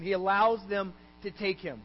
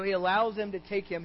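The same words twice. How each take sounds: First: "allows" stressed, pause before "to take him"; emphatic repeat. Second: Said in the usual way. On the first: Real, not acted. Preacher repeats the point to congregation, emphatic.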